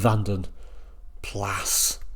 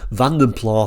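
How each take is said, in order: First: The second word rhymes with gas. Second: The second word rhymes with cow. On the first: This is the insisted-on formal pronunciation. "If you have to insist" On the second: This is how people commonly said it in the seventies. "Vanden Plough possibly isn't the right way to pronounce it"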